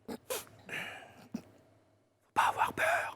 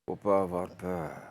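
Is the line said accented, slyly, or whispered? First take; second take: whispered; slyly. First: It is spoken in a soft whisper. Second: It is spoken in a sly, vicious manner. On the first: "en chuchotant?" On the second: "avec un regard de vicelard"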